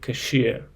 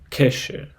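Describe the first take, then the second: First: The stress is on the second syllable. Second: The stress is on the first syllable. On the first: The speaker calls it right. "but the right pronunciation will be cashier" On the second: The speaker calls it wrong. "the first desire to say uh, cashier, which derives from the word cash"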